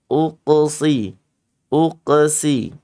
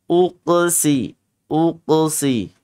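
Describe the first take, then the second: No difference in how they are said.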